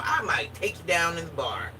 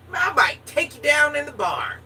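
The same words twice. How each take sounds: First: Said in the usual way. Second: Higher and louder, cheeky come-on; loud flirty tease. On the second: Real, not acted. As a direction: push it out like a bold dare. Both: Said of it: "I'm just gonna be real".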